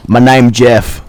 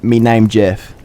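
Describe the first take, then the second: First: A hint of a dopey meme line, a bit louder; deadpan the meme. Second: Said in the usual way. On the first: Masked kid saying the meme to a householder, deadpan. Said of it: "the meme lord inside of me awoken". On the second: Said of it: "I just stood there and said".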